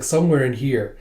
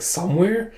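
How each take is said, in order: First: Said in the usual way. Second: Higher questioning echo; acted disbelief, pitch lifted; incredulous echo. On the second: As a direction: throw the word back as a question. Echoes the answer in disbelief.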